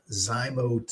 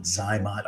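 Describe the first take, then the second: First: Zymote with a long O, rhyming with "boat"; correct pronunciation. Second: Zymot with a short O, rhyming with "hot"; alternative pronunciation. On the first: Doctor showing viewers the name of a sperm device, correct pronunciation. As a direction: say Zymote, ending like "mote". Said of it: "the correct pronunciation is actually Zymote". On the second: Doctor showing viewers what some people call it, variant pronunciation. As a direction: say Zymot, ending like "mot". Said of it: "some people call it Zymot". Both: Shown as a demonstration.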